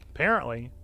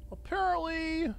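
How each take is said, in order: First: Said in the usual way. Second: High, slow drawn-out mock word; mock high sing-song. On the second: Streamer mocking own mistake, high drawn-out sarcasm.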